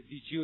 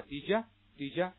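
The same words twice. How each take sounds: First: "did you" as di-ju, with a full oo; full linked form. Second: "Did you" shortened to di-ja; American movie "Did you" with you cut to ya; reduced film form. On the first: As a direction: say "did you" with j blend and unreduced you. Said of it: "的一种缩读的形式". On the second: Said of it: "简化成什么呀". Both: Shown as a demonstration.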